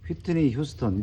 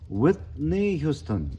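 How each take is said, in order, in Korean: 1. 한국식 음절 발음으로 말해요. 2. 영어식 발음으로 말해요. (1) "이렇게 하면 못 알아듣는다 이거야" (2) "이렇게 얘기한다는 거야"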